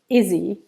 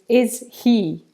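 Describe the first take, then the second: First: The H is dropped, running the words together. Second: The H is pronounced, keeping the words separate. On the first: "the H on pronouns often disappears when native speakers talk fast" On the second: "what they're actually saying is"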